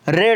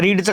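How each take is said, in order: First: The vowel is short, like 'red'. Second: The vowel is long, like 'reed'. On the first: It is the simple past tense form. "रेड होतं" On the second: It is the present tense form. "त्याचं रीडचं काय होत असतं"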